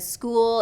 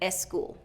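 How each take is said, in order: First: The word starts directly with the S sound. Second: An extra vowel is added before the S. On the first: The speaker calls it right. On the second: The speaker calls it wrong.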